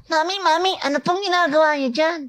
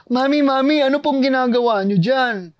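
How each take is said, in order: First: Put-on very high, converted child voice; tiny, very high-pitched child; processed kid voice. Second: High child character, acted out; high-pitched kid asking mommy. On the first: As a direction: push the kid voice even higher, thinner. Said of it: "pag-process niyan". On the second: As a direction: play a little kid calling mommy. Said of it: "voice one, kid". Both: Shown as a demonstration.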